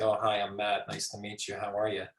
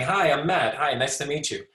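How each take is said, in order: First: Low, soft, toneless introduction; expressionless greeting. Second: Friendly, animated introduction; smiling greeting. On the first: Lecturer showing a greeting without nonverbal communication, expressionless. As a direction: say hello with no warmth or expression, quietly and low. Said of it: "you're missing this whole nonverbal communication". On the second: Lecturer showing a greeting with nonverbal communication, smiling and friendly. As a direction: greet someone new with an audible smile. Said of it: "missing the smile that's saying". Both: Shown as a demonstration.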